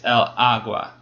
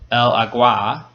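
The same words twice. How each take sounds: First: The stress is on the first syllable. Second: The stress is on the second syllable. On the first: The speaker calls it right. "So the first syllable is accented, it's stressed" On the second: The speaker calls it wrong. "We don't say el agua"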